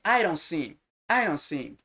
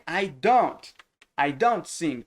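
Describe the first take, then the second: First: "I don't sing" linked as "I-ron sing"; R sound of fast speech. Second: "I don't sing" with a clear D and T in "don't"; careful written form. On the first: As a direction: tap the D of "don't" like an R. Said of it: "Aí vai o som de R". ("I don't sing" emendado, com som de R) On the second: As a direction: separate the words of "I don't sing". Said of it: "quando você tá escrevendo". ("I don't sing" com D e T claros, como se escreve) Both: Shown as a demonstration.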